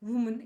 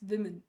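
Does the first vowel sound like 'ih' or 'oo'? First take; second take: oo; ih. First: The first vowel sounds like 'oo'. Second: The first vowel sounds like 'ih'. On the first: The speaker calls it wrong. "It's not ವುಮನ್" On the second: The speaker calls it right. "It's ವಿಮೆನ್"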